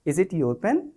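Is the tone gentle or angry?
gentle. It is asked in a gentle, affectionate tone.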